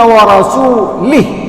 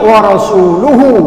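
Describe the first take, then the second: First: The vowel before the final h is i. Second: The vowel before the final h is u. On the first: God also disowns the Prophet. The speaker calls it wrong. "sahabat Nabi yang salah baca Quran" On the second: The Prophet also disowns the idolaters. The speaker calls it right. "Coba lihat di Quran. Pada barisnya"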